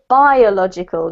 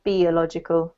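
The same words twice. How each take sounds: First: It is said with a native English pronunciation. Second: It is said with a Spanish-influenced pronunciation. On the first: The speaker calls it right. "we pronounce this word here biological" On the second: The speaker calls it wrong. "not biological"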